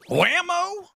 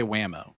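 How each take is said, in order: First: "Whammo" cried out high and loud; exaggerated WHAMMO. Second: Said in the usual way. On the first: Shown as a demonstration. Co-host teasingly asks which Whammo was said, exaggerated high cry. Contrasts two takes of Whammo.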